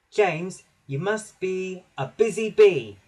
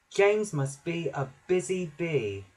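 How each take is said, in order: First: Higher, louder, emphatic instruction; little engine peeping out an order. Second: Measured recollection, pausing between words; slow, thoughtful. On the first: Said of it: "he peeped". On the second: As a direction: say it slowly, trying to remember. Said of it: "Percy said slowly". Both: A narrator's reading.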